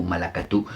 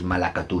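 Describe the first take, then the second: First: Malacatú with the pitch rising at the end, quiet; rising repeat. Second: Said in the usual way. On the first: Shown as a demonstration. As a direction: end malacatú on a questioning rise. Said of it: "Si la repite dos veces". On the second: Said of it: "una palabra que no hay que decir nunca".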